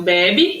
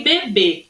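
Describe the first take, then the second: First: BEBE stressed first with open é, "BEH-bee". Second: BEBÊ stressed last with closed ê. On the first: Teacher contrasting two words for pupils, BEBE with open first vowel. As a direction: hit open BÉ, weak final "bi". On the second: Teacher contrasting two words for pupils, BEBÊ with closed final vowel. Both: Shown as a demonstration. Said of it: "Ó como é que eu falo".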